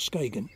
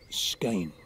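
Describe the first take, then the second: First: The middle consonant is a hard g sound. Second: The middle consonant sounds like a y. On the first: The speaker calls it wrong. "not Skagen" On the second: The speaker calls it right.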